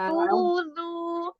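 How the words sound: It is said in a high-pitched voice. The speaker calls it wrong. "Ini suara tinggi"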